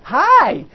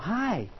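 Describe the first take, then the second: First: It is an excited, energetic greeting. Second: It is a calm, warm greeting.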